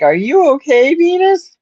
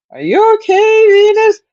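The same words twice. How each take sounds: First: High, sweet call to a pet; calling the cat. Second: Much higher, louder call to the cat. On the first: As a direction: coax the hiding kitty gently. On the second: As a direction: call out anxiously for the kitty. Calling cat again, more worried. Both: Retold or imitated.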